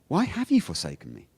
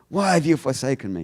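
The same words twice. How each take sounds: First: It is said in an exasperated, challenging tone. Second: It is said in a plain, reading tone.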